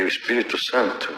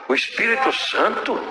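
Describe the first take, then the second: First: Said in the usual way. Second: Higher, rising, disbelieving question; incredulous echo. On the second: Retold or imitated. Wife doubting her husband's answer, incredulous rising echo. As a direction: echo it back as if it can't be true.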